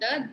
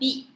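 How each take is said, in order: First: The vowel is a short 'uh' sound. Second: The vowel is a long 'ee' sound. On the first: The speaker calls it wrong. "sorry, not the" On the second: The speaker calls it right. "Vowels க்கு முன்னாடி the வந்துச்சுன்னா you pronounce it as the"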